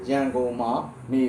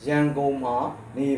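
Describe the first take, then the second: No difference in how they are said.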